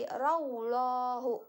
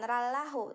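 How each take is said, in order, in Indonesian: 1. Bunyi 'l' dalam Allah itu tebal dan berat. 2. Bunyi 'l' dalam Allah itu tipis dan ringan. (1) "Kalau tebal itu berarti raulahu" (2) "bukan bukan rallahu"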